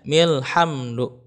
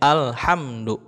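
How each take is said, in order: First: The 'a' is dropped, joined to a preceding m. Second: The word starts with a clear 'a' sound. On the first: The reading runs on from the previous word. "kalau mimnya di wasol ... maka hamzahnya tidak dibaca" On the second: The reading stopped before this word. "seperti ibaratkan ada fathahnya ya, alhamdu begitu. Kalau mimnya di waqaf"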